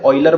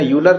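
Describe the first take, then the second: First: The name begins with an 'oy' sound. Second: The name begins with a 'yoo' sound. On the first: The speaker calls it right. "ऑयलर बोलते हैं इसको" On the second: The speaker calls it wrong. "यूलर नहीं बोलते"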